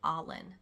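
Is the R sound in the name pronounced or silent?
silent. The name is said without an R sound. "in my accent I say Arlen. Because in New Zealand accent, you don't really pronounce the R's"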